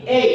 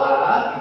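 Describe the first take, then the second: First: The letter is said as a gliding 'ay'. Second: The letter is said as a plain 'ah'. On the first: This is the English letter name. "kita baca menjadi E" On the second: This is the Indonesian letter name. "Kalau A"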